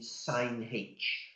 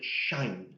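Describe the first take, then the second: First: It is said as two syllables, sine then aitch. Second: It is said as one syllable, shine. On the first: The H might be mistaken for the angle. The speaker calls it wrong. "I'm not keen on saying sine H" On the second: It clearly refers to the hyperbolic function. The speaker calls it right. "So I call it shine"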